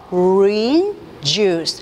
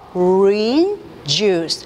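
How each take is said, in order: First: The phrase is said in three syllables. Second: The phrase is said in three syllables.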